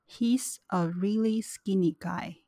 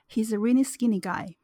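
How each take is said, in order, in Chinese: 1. 这句话说得很慢，很刻意。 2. 这句话是正常的口语语速。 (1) "那接下来是慢速" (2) "我会先念正常语速"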